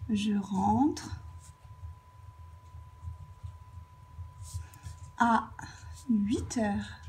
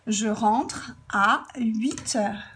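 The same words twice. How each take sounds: First: Long pauses before and after "à"; broken-up dictation. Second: "à" stretched out and leaned on; slow example sentence, lingering on "à"; stress on à. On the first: Teacher writing the example out, dictating "Je rentre... à... huit heures" in pieces. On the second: Teacher giving an example of a time, stressing "à". Example given whole before writing it. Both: Shown as a demonstration.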